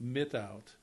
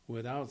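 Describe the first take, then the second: First: The word begins with an M sound. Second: The word begins with a W sound. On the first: "They would pronounce it mitout" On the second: "they could not pronounce without sound"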